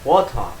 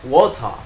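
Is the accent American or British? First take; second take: British; British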